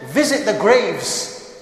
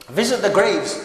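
First: Drawn out, each word weighed; slow solemn quote. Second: Said in the usual way. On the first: Shown as a demonstration. Preacher quoting the prophet to brothers, slow and solemn. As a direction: lay the prophet's words down slowly. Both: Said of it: "he went further and he said".

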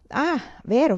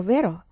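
First: Vero rising high, sudden; oh right, high and bright; remembering. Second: Said in the usual way. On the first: A narrator's reading. (vero, acuto e in salita)

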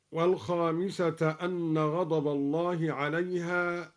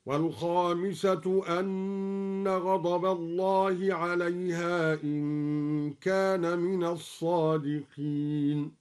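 First: Said in the usual way. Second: والخامسة ending in u, anna, slowly recited; والخامسة in the nominative, measured; raf on والخامسة. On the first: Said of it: "بالرفع". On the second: Shown as a demonstration. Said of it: "هكذا".

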